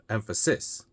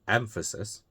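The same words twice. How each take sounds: First: The stress is on the third syllable. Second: The stress is on the first syllable. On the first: The speaker calls it wrong. "the third one, ... closer. It's possible, but it's not how we would normally say it" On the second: The speaker calls it right. "the first one"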